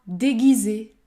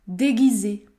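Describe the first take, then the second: Both takes have the same delivery.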